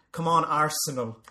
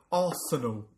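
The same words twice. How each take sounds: First: Said in the usual way. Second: Arsenal in an English football fan's accent; put-on English accent. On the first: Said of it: "in an Irish accent". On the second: Shown as a demonstration. Fan explains singing at matches, put-on English accent. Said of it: "put on an accent".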